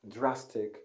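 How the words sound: It starts with a clear 'dr' sound. "The standard pronunciation for this word is dra"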